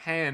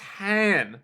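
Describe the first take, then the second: First: The syllable ends with a d sound. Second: The syllable ends without a d sound. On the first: "not hand" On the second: "it's han"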